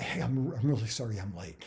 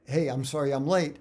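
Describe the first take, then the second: First: Slightly breathless, hurried apology; lightly acted out-of-breath apology. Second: Said in the usual way. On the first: Shown as a demonstration. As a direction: rush it out, a little winded. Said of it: "I'm gonna be out of breath". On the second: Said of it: "instead of just starting off".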